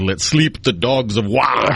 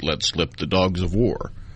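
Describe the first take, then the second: First: The verb is said with a vowel like 'sleep'. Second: The verb is said with the modern 'slip' vowel. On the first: This is closer to how it was said when written. "it was closer to" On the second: This is how it is said today. "in modern English, ... is stated like that"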